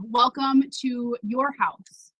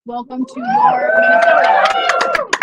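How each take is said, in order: First: Said in the usual way. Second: Much higher, louder, slow shouted welcome; rousing shout. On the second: Real, not acted. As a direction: lift the crowd with it.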